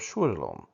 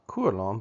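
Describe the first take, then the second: First: The word begins with an SH sound. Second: The word begins with a K sound. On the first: The speaker calls it right. "The C is actually an S sound" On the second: The speaker calls it wrong. "not kualom"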